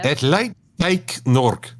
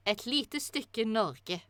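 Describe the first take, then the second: First: "Et light teik nork" spelled out slowly with English vowels; butchered Norwegian. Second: "et lite stykke Norge" slow, clear native Norwegian; correct Norwegian. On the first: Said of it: "I will butcher this language quite horribly". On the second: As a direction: model "et lite stykke Norge" slowly, word by word. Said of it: "then I'm gonna pronounce it". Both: Shown as a demonstration.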